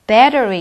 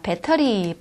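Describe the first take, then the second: First: The middle t is a soft flap. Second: The middle t is a hard t. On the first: The speaker calls it right. "battery 이렇게" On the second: The speaker calls it wrong. "배터리 아니고요"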